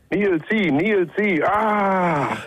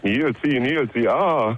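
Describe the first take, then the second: First: It is called out loudly, with more force. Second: It is called out weakly, without much force.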